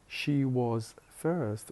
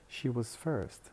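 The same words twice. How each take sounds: First: The word 'was' has a full, strong vowel. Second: The word 'was' has a weak schwa vowel. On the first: The speaker calls it wrong. "instead of saying" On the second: The speaker calls it right. "We turn the strong vowel uh into schwa"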